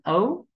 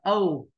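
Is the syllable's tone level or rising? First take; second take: rising; level. First: The syllable has a high rising tone. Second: The syllable has a level tone.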